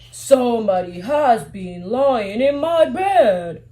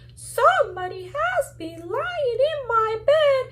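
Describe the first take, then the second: First: It is said in a big, deep voice. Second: It is said in a tiny, small voice.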